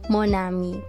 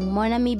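First: The word is said slowly. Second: The word is said quickly. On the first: "Kung fast or slow" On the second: "Kung fast or slow"

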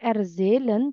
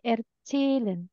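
First: The z is said as a plain z sound. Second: The z is said as a ts sound. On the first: The speaker calls it wrong. "bukan erzählen" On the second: The speaker calls it right. "tapi erzählen"

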